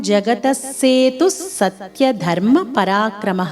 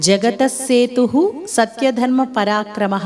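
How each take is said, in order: The two takes are said the same way.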